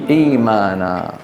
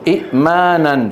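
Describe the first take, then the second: First: إيمانا slowly with a long ee, no stop; substituted long vowel. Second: إئمانا with a short i cut by a glottal stop; original hamza form. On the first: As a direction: draw out the first vowel of إيمانا. (نطق «إيمانا» بمدّ الياء ببطء) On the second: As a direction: stop the breath after the first i of إئمانا. (نطق «إئمانا» بهمزة ساكنة محققة) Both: Shown as a demonstration. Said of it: "شو بتصير؟".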